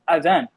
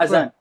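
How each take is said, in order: First: The middle consonant is a dal sound. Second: The middle consonant is a z sound. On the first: The speaker calls it right. "It's with a dal" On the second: The speaker calls it wrong.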